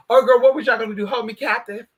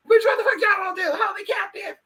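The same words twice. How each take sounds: First: Raised, mildly mock-outraged questioning; indignant challenge. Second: High, squealing mock outrage; outraged shout. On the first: Confronting the imagined plotters, mildly indignant. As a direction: call them out with some indignation. Indignant at suspected plot, first take. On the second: Confronting the imagined plotters, hammed-up outraged shout. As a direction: holler it in over-the-top disbelief. Same challenge repeated, escalated to shout.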